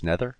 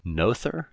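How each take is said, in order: First: "Noether" said as NEH-ther; alternative pronunciation. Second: "Noether" said as NO-ther, questioning; unsure pronunciation. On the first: Host checking the name with co-host, "Noether" as NEH-ther. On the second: Host unsure of the physicist's name, "Noether" as NO-ther. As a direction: say "Noether" slowly with a long O, as a question. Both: Shown as a demonstration. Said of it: "Is that how it's pronounced".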